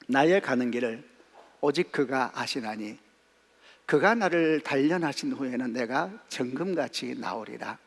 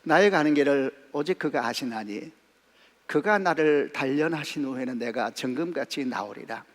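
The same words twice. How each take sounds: First: It is read with sorrowful, heartfelt feeling. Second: It is read plainly, without special feeling.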